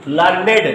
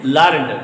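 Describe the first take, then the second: First: लर्नेड said as two syllables, lur-ned, ending on a clear ned; two-syllable learned. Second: लर्न्ड said as one syllable, lurnd, the past tense of learn. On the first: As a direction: pronounce लर्नेड as lur-ned, the adjective meaning scholarly. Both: Shown as a demonstration. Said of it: "दोनों अलग अलग तरीके से पढ़ रहे हैं".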